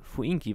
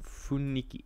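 First: The vowel i comes before the n sound. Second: The vowel i comes after the n sound. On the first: It is the easier form people like to say. "gerne Fuinki aussprechen, weil es leichter zu sprechen ist" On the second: It is the harder original form of the word. "Ist auch immer ein bisschen schwer auszusprechen"

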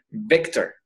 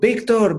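First: The name is said with an English accent. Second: The name is said with a Spanish accent. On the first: Children who speak English say it this way. "los niños entre ellos se llamarían Victor, así" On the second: Spanish-speaking parents say it this way. "nosotros de papás les diríamos"

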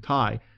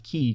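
First: The word does not sound like 'key'. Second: The word sounds like 'key'. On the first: "I've used the pronunciation chi" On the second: "other sources that might pronounce it as key"

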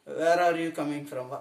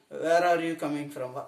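First: It is said slowly with each word separate. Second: The same.

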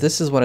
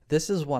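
First: The voice is louder with some background echo. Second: The voice is very soft and quiet. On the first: "when the audio gain is about halfway up" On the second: "with the microphone gain turned all the way down to the bottom, unedited"

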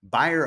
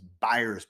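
First: The name ends without an s sound. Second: The name ends with an s sound. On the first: The speaker calls it right. "but it's Byer of Maine" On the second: The speaker calls it wrong. "I keep mispronouncing that as Byers"

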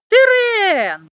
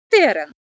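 First: The stress is on the last syllable. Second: The stress is on the first syllable. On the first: It names a territory. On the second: It names a plant.

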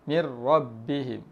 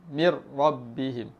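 No difference in how they are said.

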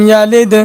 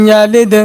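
The two takes are said the same way.

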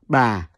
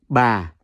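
First: The pitch starts low and falls gently. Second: The same.

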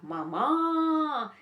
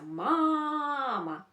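First: The stress is on the second syllable. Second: The stress is on the first syllable. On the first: The speaker calls it wrong. "поставлю наголос на інший склад" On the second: The speaker calls it right. "Дивіться"

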